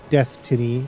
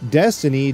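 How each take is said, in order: First: The name is said like 'death tiny'. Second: The name is said like 'destiny'. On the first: The speaker calls it wrong. "not Death Tiny" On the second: The speaker calls it right. "but Destiny"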